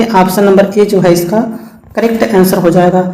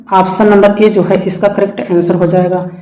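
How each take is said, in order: No difference in how they are said.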